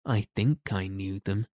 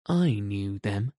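First: Mildly unsure, understated; rather doubtful. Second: A touch of needling self-importance; mildly annoying boast. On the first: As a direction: say it with a touch of doubt. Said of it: "rather doubtfully". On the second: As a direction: say it to needle the others, lightly. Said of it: "John said to annoy the others". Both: A narrator's reading.

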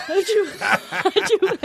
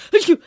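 First: High-pitched fake sneezes in a row; squeaky audition sneezes, one after another; hammed-up high sneezes for the audition. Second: A small stagey achoo; half-hearted pretend sneeze; fake sneeze. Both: Shown as a demonstration. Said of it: "I had to fake sneeze".

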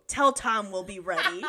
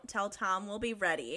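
First: Low, firm mock-manly voice; manliest Freddy voice. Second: Mildly manly, low and softer; restrained attempt at a manly declaration; manly Freddy voice. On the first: Reader redoing Freddy on request, manliest voice. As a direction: declare it like a manly hero. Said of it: "No, manly, manly of manliest". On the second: Reader voicing Freddy's resolve, mildly manly. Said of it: "in his manliest of manly voices".

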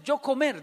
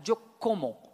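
First: "yo comer" said as a learner's mistake, stressing yo, louder; wrong verb form. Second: "yo como" stated firmly, falling tune on como; correct conjugation. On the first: Retold or imitated. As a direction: insist proudly on the wrong "yo comer". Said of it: "No, yo comer no". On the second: Shown as a demonstration. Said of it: "No, yo comer no, yo como".

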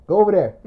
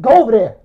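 First: Said in the usual way. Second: Louder retold command; dismissive order. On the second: Friend banishing him across the room, firm order. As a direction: send him away firmly.

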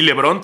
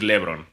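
First: "LeBron" stressed on the last syllable, le-BRON. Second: "LeBron" stressed on the first syllable, LE-bron; accent left off. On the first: Showing gringos where accents go, stress on the O of "LeBron". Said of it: "tendría acento en la O". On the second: Mocking names without written accents, "LeBron" stressed as LE-bron. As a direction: move the stress off the O in "LeBron", onto LE. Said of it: "no lo hagan entonces". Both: Shown as a demonstration.

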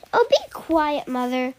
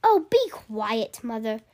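First: Said in the usual way. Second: Sulky dismissive. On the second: Shown as a demonstration.

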